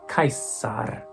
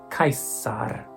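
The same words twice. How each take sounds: No difference in how they are said.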